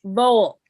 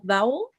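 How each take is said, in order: First: "Vowel" said as vole, one syllable; corrected pronunciation. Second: "vowel" rhyming with towel; mispronounced vole. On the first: Shown as a demonstration. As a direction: repeat "Vowel" louder with a long o, like hole. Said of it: "it's pronounced vowel". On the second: Real, not acted. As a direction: say "vowel" with an ow sound, as in now. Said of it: "What am I saying there?".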